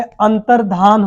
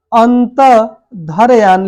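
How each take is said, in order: First: अंतर्धान slowly, ending 'dhaan' without y; correct pronunciation. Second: अंत धरयान broken up with 'dharayaan'; wrong pronunciation. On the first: Teacher giving the right word, slow, with plain 'dhaan'. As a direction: join अंतर्धान as 'antar-dhaan'. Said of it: "बिल्कुल सही शब्द है". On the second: Teacher showing a miswritten word, broken and mispronounced 'dharayaan'. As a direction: split अंत धरयान and add a y. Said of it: "गलत है". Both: Shown as a demonstration.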